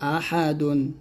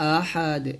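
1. শব্দটি একটি "dun" অক্ষর দিয়ে শেষ হয়। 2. শব্দটি একটি খালি "d" ধ্বনি দিয়ে শেষ হয়। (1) "দাল দুই পেশ দুন" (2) "যদি এখানে থামেন তাহলে বলতে হবে"

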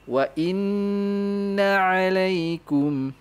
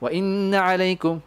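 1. Nun yang digandakan ditahan lama dan bersengau. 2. Nun yang digandakan diucapkan cepat dan pendek. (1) "Don't go fast here. Take your time" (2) "jangan jangan"

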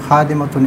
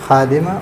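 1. शब्द एक 'tun' अक्षर पर खत्म होता है। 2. शब्द सादे 'a' स्वर पर खत्म होता है। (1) "इस तरह नहीं" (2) "बल्कि"

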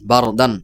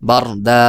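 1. শব্দটি একটি হ্রস্ব স্বরধ্বনি ও ন দিয়ে শেষ হয়। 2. শব্দটি একটি দীর্ঘ, টানা স্বরধ্বনি দিয়ে শেষ হয়। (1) "এটা বানান করে পড়লে" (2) "ওয়াকফ করা হয় তাহলে বার দা এভাবে পড়া হবে"

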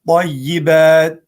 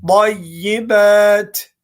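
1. Son t yumuşak, zar zor duyulur. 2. Son t sert, açıkça duyulur. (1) "böyle yumuşak olursa o harf gelmez" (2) "T harfini hissettirelim"

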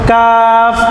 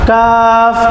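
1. স্বরটি লম্বা করে টানা হয়। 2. স্বরটি লম্বা করে টানা হয়।

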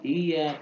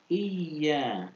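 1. Bunyi y-nya pendek dan tunggal. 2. Bunyi y-nya ditahan dan digandakan. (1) "bukan iya" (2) "ada tasydidnya di situ"

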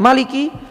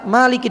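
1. Vokal pertama dibaca pendek. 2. Vokal pertama dibaca panjang. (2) "dengan panjang"

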